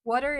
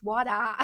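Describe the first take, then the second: First: "Water" with the final R sounded; plain rhotic "Water"; American R. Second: "water" ending on a long open "ah"; non-rhotic "water"; no final R. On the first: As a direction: finish "Water" on a clear American R. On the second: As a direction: drop the R and stretch the end of "water". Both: Shown as a demonstration. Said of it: "Water is water".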